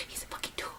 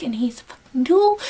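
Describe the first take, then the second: First: Whispered repeat; a secret whispered insult; whispered aside. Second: Said in the usual way. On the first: Real, not acted.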